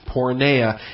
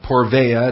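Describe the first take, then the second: First: The consonant after 'por' is an n sound. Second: The consonant after 'por' is a v sound. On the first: The speaker calls it right. "it's porneia" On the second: The speaker calls it wrong. "So it's not porveia"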